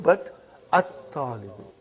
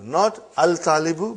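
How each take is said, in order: First: At-talibu with a doubled t and no lam; right at-talibu. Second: Al-talibu said with the lam sounded, as the wrong form. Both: Shown as a demonstration.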